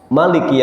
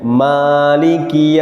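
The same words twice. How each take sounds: First: The first vowel is short. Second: The first vowel is long. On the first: "manya pendek" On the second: "manya dibaca panjang"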